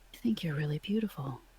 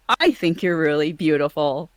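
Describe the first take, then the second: First: It is delivered in a sincere, heartfelt way. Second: It is delivered in a cheesy, overdone way. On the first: The speaker calls it right. "but if it's something more heartfelt" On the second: The speaker calls it wrong. "If it sounds cheesy"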